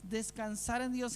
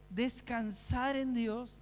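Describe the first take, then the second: First: Said in the usual way. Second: "Descansar en Dios" drawn out very slowly, each word weighed; slow emphasis. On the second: Shown as a demonstration. Preacher stresses the answer to the congregation, slow weighty "Descansar en Dios".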